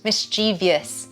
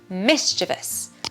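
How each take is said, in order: First: It is said with four syllables. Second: It is said with three syllables. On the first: The speaker calls it wrong. "It is not four syllables. It is not mischievous" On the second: The speaker calls it right. "we put the stress on the first syllable"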